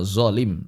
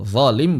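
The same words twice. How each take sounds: First: "zolim" with thick buzzing z; slow "zolim", z in place of th; wrong zai-like zo. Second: "Zalim" with thick voiced th; slow tongue-tip th opening "Zalim"; correct Arabic zo. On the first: Teacher shows the error to avoid, wrong zai-like zo. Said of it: "bukan zolim". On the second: Teacher models correct Arabic for students, correct zo with th. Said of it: "jangan lagi mengucapkan zo dengan zo". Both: Shown as a demonstration.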